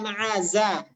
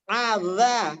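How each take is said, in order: First: The middle consonant is a buzzing 'z' sound. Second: The middle consonant is a soft 'dh' sound. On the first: The speaker calls it wrong. "bukan aza" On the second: The speaker calls it right. "ujung lidah terbuka"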